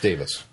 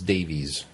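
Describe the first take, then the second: First: The name ends with a short 'is' sound. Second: The name ends with a long 'ees' sound. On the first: The speaker calls it right. "It's Davis" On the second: The speaker calls it wrong. "I always thought it was Davies"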